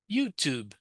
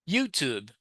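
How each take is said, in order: First: The final B is very light and subtle. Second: The same.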